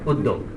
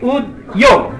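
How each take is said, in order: First: The 'd' is doubled with no 'y' sound. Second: A 'y' sound follows the 'd'. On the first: This is how people normally say it. The speaker calls it right. "বলি উদ্যোগ" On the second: This follows the written spelling. The speaker calls it wrong. "লিখি উদ্যোগ"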